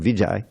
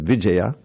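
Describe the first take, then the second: First: The name is said without the final vowel. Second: The name is said with a final vowel. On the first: This is the common everyday form. The speaker calls it wrong. "we all call him Vijay" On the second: This is the official form. The speaker calls it right. "his real official pronunciation is Vijaya"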